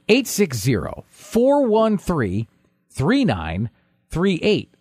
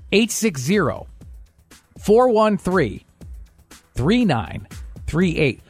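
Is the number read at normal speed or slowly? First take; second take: normal; slowly. First: The number is read at normal speed. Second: The number is read slowly.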